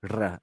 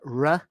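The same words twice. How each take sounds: First: The r is rolled with a trill. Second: The r is smooth, without any roll. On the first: The speaker calls it wrong. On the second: The speaker calls it right.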